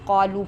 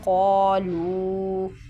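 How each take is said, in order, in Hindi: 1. अंतिम स्वर छोटा बोला जाता है। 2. अंतिम स्वर लंबा खींचकर बोला जाता है। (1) "इसमें मद्दा इसको हम नहीं पढ़ते, हम सिर्फ क़ालू पढ़ते हैं" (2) "जबकि ये है क़ालू बला क़द"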